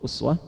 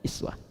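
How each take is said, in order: First: The word begins with an 'u' vowel. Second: The word begins with an 'i' vowel. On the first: This follows the reading transmitted by Hafs from Asim. "Bisa dibaca uswah, itu mengambil riwayat Hafiz dari Asim, uswah begini" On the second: This follows the reading transmitted by Qalun or Warsh from Nafi'. "Bisa dibaca iswah, riwayat Qalun atau Warash dari Nafi'"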